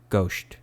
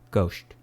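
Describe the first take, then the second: First: The final S sound is muffled and lisped. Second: The final S sound is muffled and lisped.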